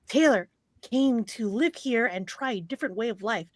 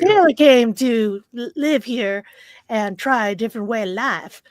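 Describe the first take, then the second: First: It is read in the speaker's plain accent. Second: It is read in a Southern country accent.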